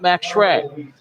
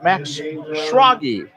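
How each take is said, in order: First: The surname ends on a consonant sound. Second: The surname ends with an extra vowel sound. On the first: The speaker calls it wrong. "not Max Schrag" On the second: The speaker calls it right. "is how we pronounce that"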